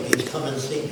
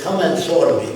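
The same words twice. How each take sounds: First: Said in the usual way. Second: Imitated Arab-accented invitation. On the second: Arab group leader inviting the caller over, Arab accent. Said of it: "said in an Arab accent".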